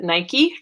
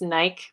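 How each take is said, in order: First: It is said the American way. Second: It is said the non-American way. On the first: "since it's an American company, I'm going to pronounce it Nike because that's how we say it at home" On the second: "some of you probably pronounce this Nike"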